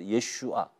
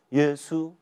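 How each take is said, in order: First: The name ends with an extra 'a' sound. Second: The name ends without the extra 'a' sound. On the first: This is the true Hebrew name of the Lord. The speaker calls it right. "若你懂希伯来，你马上会知道耶稣啊" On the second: This is a deliberately unflattering form of the name. The speaker calls it wrong. "他们不念耶稣啊，他们说耶稣这样"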